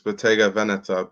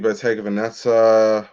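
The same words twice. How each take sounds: First: The name is said with Italian-like sounds. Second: The name is said with anglicized sounds. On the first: The speaker calls it right. "It's Bottega Veneta" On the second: The speaker calls it wrong. "that's not how you pronounce it"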